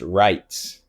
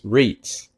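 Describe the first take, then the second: First: The vowel sounds like 'eye'. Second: The vowel sounds like 'ee'. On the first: The speaker calls it right. "My last name is pronounced Wrights" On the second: The speaker calls it wrong. "so many people in my life assume it's it's Reitz"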